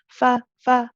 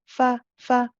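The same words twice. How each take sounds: Both takes have the same delivery.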